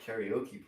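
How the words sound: It is pronounced with American English vowels. The speaker calls it wrong. "that's not how you say it"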